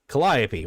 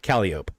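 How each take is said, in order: First: It uses the general, standard pronunciation. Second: It uses the local New Orleans pronunciation. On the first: This is how the word is usually said elsewhere. "there's a button that says" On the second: This is how locals say the road name. "down here in New Orleans, we call it Calliope. That's how we pronounce it down here"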